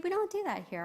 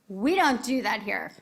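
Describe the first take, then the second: First: It is said in a soft, gentle tone. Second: It is said in a firm, stern tone. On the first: A kind correction. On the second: A strong, serious rebuke.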